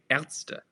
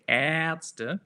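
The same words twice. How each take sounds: First: The first vowel is kept short. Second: The first vowel is drawn out long. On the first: The speaker calls it right. "It would also be kind of shorter" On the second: The speaker calls it wrong. "We don't say Ärzte, like Übung"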